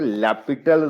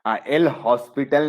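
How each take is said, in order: First: It is said as lopital, without any s. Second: It is said as el hospital, with the s. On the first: The speaker calls it right. "उसे लैपिटल rule पड़ा है" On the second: The speaker calls it wrong. "एल हॉस्पिटल नहीं बोलते"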